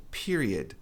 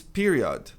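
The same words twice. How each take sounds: First: PERIOD with a weak "ed" ending; PERIOD, final O reduced; correct pronunciation of period. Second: PERIOD with a full "od" ending; common mispronunciation of period. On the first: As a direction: say "period" as PEER-ee-ud. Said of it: "a pronúncia correta é period". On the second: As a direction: say "period" as PEE-ree-ODD. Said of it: "A maioria diz period". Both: Shown as a demonstration.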